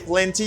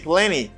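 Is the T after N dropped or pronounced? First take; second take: pronounced; dropped. First: The T after N is clearly pronounced. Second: The T after N is dropped. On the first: The speaker calls it wrong. "You don't say" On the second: The speaker calls it right. "you say"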